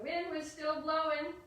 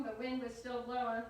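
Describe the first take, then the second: First: High, loud, swelling line; big performed refrain, stretched at the end; wind demonstration. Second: Said in the usual way. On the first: Shown as a demonstration. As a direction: blow the words out like gusting wind. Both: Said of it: "We have to do our wind demonstration".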